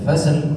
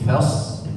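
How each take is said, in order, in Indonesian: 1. Bunyi s dilepas dengan pantulan. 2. Bunyi s ditahan tanpa pantulan. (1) "tidak dipantulkan seperti ayat sebelumnya, bukan fasl" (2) "tapi fasl ... sad di situ ditahan"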